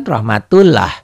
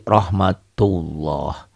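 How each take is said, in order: First: Rahmatullah with a thin, open "lah"; as written. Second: Rahmatullah slowly, with a thick "loh"; as recited. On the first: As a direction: say rahmatullah as spelled, A at the end. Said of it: "Tulisannya kan rahmatullah". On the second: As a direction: round the ending of rahmatullah into a long O. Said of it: "dibacanya jadi rahmatullah". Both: Shown as a demonstration.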